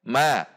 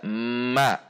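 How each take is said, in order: First: The sound comes out immediately. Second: The sound is held back before coming out. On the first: The speaker calls it right. "yang langsung keluar" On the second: The speaker calls it wrong. "Tidak dibaca ma"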